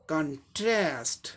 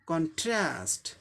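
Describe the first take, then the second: No difference in how they are said.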